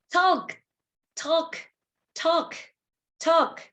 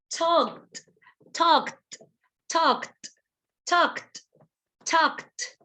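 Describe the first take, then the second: First: "Talk" short and high, ending on k; "Talk" as a higher, crisp single syllable; final K sound. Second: "talked" high, with a crisp kt ending; "talked" as one short syllable ending in voiceless kt. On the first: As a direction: clip "Talk" with a voiceless k. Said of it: "the sound of the letter K". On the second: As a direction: add a released t after k in "talked". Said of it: "With the letter T". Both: Shown as a demonstration.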